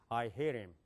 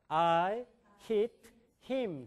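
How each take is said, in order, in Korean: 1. 미국 영어 억양으로 말했어요. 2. 한국식 억양으로 말했어요. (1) "제가 영어로 해볼게요" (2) "I hit him 그러잖아요. 그런 용어는 없어요"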